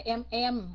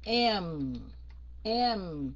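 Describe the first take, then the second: First: EM EM short and level, no final hum; Vietnamese em. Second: M held long, falling into a nose hum; sung, let M vibrate as it drops; humming nasal M. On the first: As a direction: say em as the Vietnamese word. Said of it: "em Anh của Việt Nam". (em đọc ngắn như tiếng Việt) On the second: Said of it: "nghe cái lỗ mũi run run". (sung, M ngân xuống giọng mũi) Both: Shown as a demonstration.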